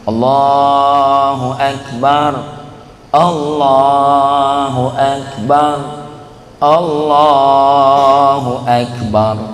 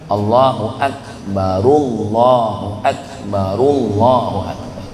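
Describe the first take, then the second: First: The phrases are separated by pauses. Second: The phrases are joined without pauses.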